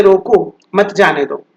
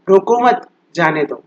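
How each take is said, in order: First: रोको, then a clear break, then मत जाने दो together; pause after रोको. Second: रोको मत together, then a clear break before जाने दो; pause after मत. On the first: Teacher showing how a comma changes meaning, pause after रोको. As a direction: break right after रोको, run मत जाने दो as one phrase. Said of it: "अगर आपने सही से कॉमा नहीं लगाया". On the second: Teacher showing the other meaning of the sentence, pause after मत. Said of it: "दोनों ही सेंटेंस की अपनी अलग-अलग meaning". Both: Shown as a demonstration.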